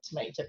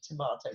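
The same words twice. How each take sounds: First: Tomato is said the American way. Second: Tomato is said the non-American way. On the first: The speaker calls it wrong. "not tomato" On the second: The speaker calls it right. "I have managed to get my American born granddaughter to say tomato"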